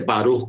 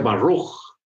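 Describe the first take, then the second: First: It is said with a Spanish-speaker's R. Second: It is said with an American English R.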